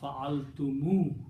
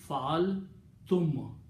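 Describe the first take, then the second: First: The word ends with an added 'u' vowel. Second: The word ends in a bare 'm' sound. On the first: "they will pronounce fa'altumu with a Dhamma" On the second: "naturally you will read fa'altum"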